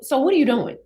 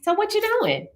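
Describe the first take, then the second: First: It is said in a sharp, sassy tone. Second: It is said in a light, cheerful tone. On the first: The reader takes the message as confrontational. "I perceived it as" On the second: The sender is simply asking in a friendly way. "you could be just happy"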